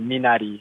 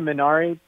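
First: The R sounds almost like a D. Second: The R sounds like an English R. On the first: This is how it is said in Korean. "We say Minari. Almost the R is almost like a D" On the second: This is how many people commonly say it. "If you say Minari, that's a lot of people on set say that"

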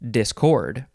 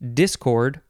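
First: The stress is on the second syllable. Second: The stress is on the first syllable. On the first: "You can emphasize either syllable" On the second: "You can emphasize either syllable"

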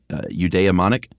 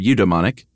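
First: The middle 'i' sound is pronounced. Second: The middle 'i' sound is left silent. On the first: "I'm going to call it eudaimonic" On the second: "Maybe that's a silent I"

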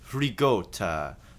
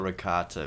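First: The word is said with a New Jersey pronunciation. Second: The word is said with a standard pronunciation. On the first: The speaker calls it wrong. "the people from my native land, New Jersey, would say Ragota" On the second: The speaker calls it right. "I call it ricotta because I'm not a garbage person"

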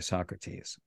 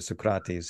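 First: The name is said in English pronunciation. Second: The name is said in Greek pronunciation.

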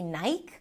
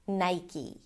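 First: The final e is silent. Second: The final e is pronounced like ee. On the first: The speaker calls it wrong. "the E at the end is usually silent. And therefore people assume that it might be Nike" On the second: The speaker calls it right. "Nai, I as in my, and then E as in C"

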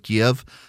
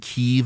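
First: The name follows the Russian pronunciation. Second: The name follows the Ukrainian pronunciation. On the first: It is the older form, linked to Russian. "instead of Kiev, K-I-E-V is the Russian spelling" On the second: It avoids siding with the Russians. "so many people started saying"

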